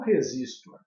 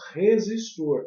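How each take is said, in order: First: The stress is on the second syllable. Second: The stress is on the last syllable. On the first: This is not said in Brazil. The speaker calls it wrong. "e não resistor" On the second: This is the Brazilian way of saying it. The speaker calls it right. "nós falamos resistor"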